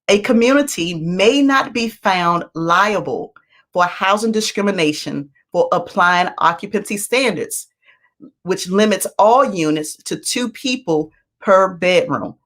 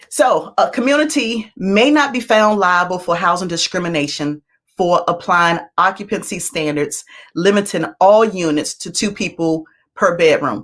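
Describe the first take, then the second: First: It is said at a slower pace. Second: It is said at a fast pace.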